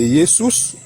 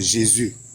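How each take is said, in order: First: The name is pronounced in a Latin way. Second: The name is pronounced in a French way. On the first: "c'est-à-dire de Jesus" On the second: "il va le prononcer à la manière des Français"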